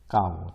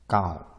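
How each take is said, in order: First: It is said with the level tone. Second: It is said with the first tone. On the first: It means to scratch. "그냥 평성으로 까오" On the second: It means old or worn. "일성이 되겠죠"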